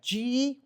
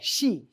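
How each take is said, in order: First: The name starts with a 'z'-like sound. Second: The name sounds like 'she'. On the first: The speaker calls it wrong. "Oftentimes they say it like a Z" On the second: The speaker calls it right. "it's just like S H E, like the female pronoun"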